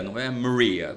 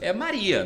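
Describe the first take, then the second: First: "Maria" said the affected, foreign-sounding way, like "Moria"; mock an affected Americanised "Maria"; exaggerated foreign Maria. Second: "Maria" in the plain Portuguese way, higher and louder. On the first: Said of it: "o nome já não é Maria". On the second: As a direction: stress the plain Brazilian "Maria". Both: Shown as a demonstration.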